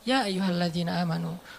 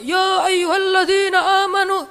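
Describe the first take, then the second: First: It is said in a calm, relaxed way. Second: It is said loudly, like shouting.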